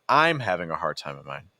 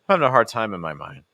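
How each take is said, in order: First: The word "I'm" is strongly stressed. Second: The word "I'm" carries no special stress.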